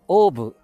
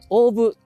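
First: The pitch does not rise at the word's end. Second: The pitch rises at the end of the word. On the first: This is how local people say it. "地元では大部としたいと思います" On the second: This is how people from the Tokyo side say it. "東京の方の方は、大部。少しこう、語尾が上がりますね。"

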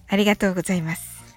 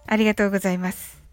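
No difference in how they are said.

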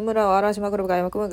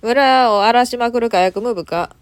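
First: It is read very fast. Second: It is read at a normal pace.

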